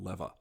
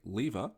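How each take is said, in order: First: The first vowel rhymes with ever. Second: The first vowel rhymes with fever. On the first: This is another country's way. The speaker calls it wrong. "not lever. I guess they rhyme ever and lever" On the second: This is the Australian way. The speaker calls it right. "as an Australian, we say lever"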